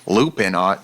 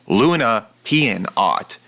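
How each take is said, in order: First: The first word is said as two syllables, Loo-pin. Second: The first word is said as Loo-na-pian. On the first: The speaker calls it wrong. "I did mispronounce his second channel's name" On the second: The speaker calls it right. "That like moon"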